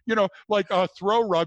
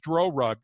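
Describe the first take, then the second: First: The first word starts with a th sound. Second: The first word starts with a d sound. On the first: The speaker calls it right. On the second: The speaker calls it wrong.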